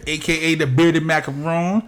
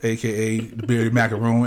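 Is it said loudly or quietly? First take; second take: loudly; quietly. First: It is said loudly. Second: It is said more quietly.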